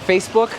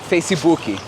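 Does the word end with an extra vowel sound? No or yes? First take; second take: No; Yes. First: It ends on the final consonant sound. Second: An extra vowel sound is added at the end. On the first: This is the American form of the word. "any word that's American" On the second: This is how Brazilians say the word. "we just add an E at the end"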